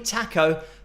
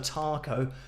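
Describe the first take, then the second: First: The first vowel is short and clipped. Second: The first vowel is long and drawn out. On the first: "It's probably taco" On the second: "in the U K we say our A's a lot longer than normal, so taco"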